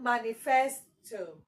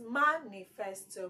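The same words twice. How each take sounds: First: The stress is not on the first syllable. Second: The stress is on the first syllable. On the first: The speaker calls it wrong. "It is not manifesto" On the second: The speaker calls it right. "your stress is on ma"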